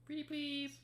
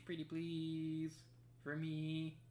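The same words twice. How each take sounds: First: Very high squeaky pleading; high cutesy begging. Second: High, slow pleading voice; sweetly beg, drawn out; cutesy begging. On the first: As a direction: squeak it out sweetly. Begging again, higher. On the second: Begging the puzzle to work. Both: Pretend.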